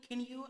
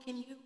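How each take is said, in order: Both takes have the same delivery.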